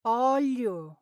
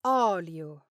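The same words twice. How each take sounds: First: "olio" with li blurred toward gli, fast; "olio" slurred as in fast speech. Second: "olio." with a clean, smooth li; clear li. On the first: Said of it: "you might hear". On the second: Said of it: "instead of". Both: Shown as a demonstration.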